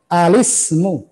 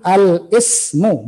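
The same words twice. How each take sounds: First: Al-ismu read as alismu, lam gliding straight into sin; correct reading. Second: Al-ismu said slowly with a catch before ismu; wrong reading. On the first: Teacher showing students the right reading, lam flowing into sin. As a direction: say Al-ismu with no break before the i. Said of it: "lihat, lihat cara bacanya". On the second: Teacher showing students the mistaken split reading. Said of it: "bukan al-ismu, bukan". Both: Shown as a demonstration.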